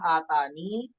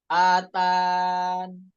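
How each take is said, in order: First: The word ends with a final 'ni' syllable. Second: The word ends on 'n' with no final vowel. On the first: "mengisbat ya" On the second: "roam tanpa huruf ya-nya"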